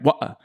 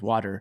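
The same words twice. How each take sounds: First: It is said in a lower-class British accent. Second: It is said in an American accent.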